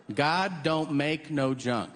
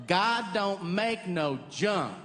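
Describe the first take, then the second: First: Southern saying. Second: Southern drawl. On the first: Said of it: "That's a real expression". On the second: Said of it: "someone will go". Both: Retold or imitated.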